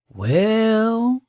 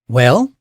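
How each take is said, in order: First: It is said in an eager, gossipy tone. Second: It is said in an impatient, urging tone. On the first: The speaker has juicy gossip to share. "y'all want to hear something juicy?" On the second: The listener should hurry up and speak. "that means spit it out"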